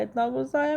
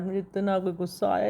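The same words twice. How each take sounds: First: इतना गुस्सा आया said much higher with a rising end; re-living the anger, pitched up; stressed repeat. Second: Said in the usual way. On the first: Real, not acted. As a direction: push इतना up high, ending on a rise.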